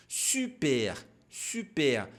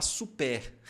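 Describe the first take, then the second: First: "Super" with lips pursed, vowel i with rounded lips; rounded French u. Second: "super" with a plain Portuguese u, lips spread; wrong Portuguese vowel. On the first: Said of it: "fazer o biquinho". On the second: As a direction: say "super" the wrong way, no lip rounding. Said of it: "você não pode falar super". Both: Shown as a demonstration.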